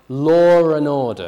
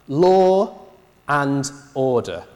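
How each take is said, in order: First: An R sound links law to and. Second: No R sound links law to and.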